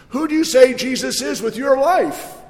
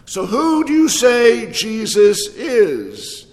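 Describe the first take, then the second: First: Higher, strong push on "life"; bold, on life. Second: Drawn out, every word weighed slowly; slow it down and let it land; slow question. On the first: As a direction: lift it and land hard on "life". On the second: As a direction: pastor asking the room, slow and deliberate. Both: Shown as a demonstration. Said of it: "say it strongly and boldly with enthusiasm".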